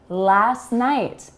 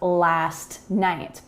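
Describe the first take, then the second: First: The T is dropped and the words link together. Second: The T is clearly pronounced in each word. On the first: The speaker calls it right. "We say last night" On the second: The speaker calls it wrong. "and not"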